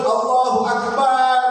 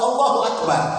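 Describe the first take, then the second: First: The vowel after b in Akbar is stretched long. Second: The b runs straight into r with no long vowel. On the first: The speaker calls it wrong. "lu kok banget" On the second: The speaker calls it right. "Nggak ada alif, ba ketemu ro, langsung"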